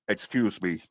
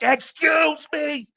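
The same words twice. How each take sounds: First: It is said at normal volume. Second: It is shouted very loudly.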